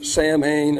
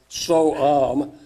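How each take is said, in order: First: It sounds like 'sam-hain', with an h sound. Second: It sounds like 'sow-in', without an h sound.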